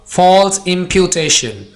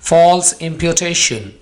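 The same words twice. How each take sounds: No difference in how they are said.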